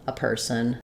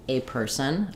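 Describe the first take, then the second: First: The article is a short, weak schwa sound. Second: The article is a full, long 'ay' sound. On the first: "It's always going to be schwa" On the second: "something a little bit more like a"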